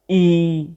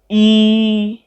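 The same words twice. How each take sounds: First: The word is said on a low pitch. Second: The word is said on a mid pitch. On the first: "let's try the three tone marks against E, do, re, mi"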